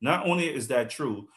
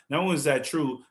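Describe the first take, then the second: No difference in how they are said.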